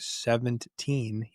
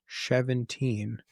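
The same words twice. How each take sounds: First: The word begins with a plain s sound. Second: The word begins with an sh sound. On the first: "when I say seventeen" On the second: "He said that my S's sound like S H's"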